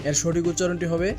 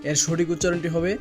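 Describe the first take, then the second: No difference in how they are said.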